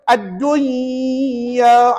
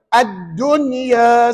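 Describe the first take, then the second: First: The n is nasalized and merged into the y. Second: The n is pronounced clearly, separate from the y. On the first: The speaker calls it wrong. "Kita baca dengung kan? Yang ni tak boleh baca gitu" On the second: The speaker calls it right. "Dibaca dengan izhar"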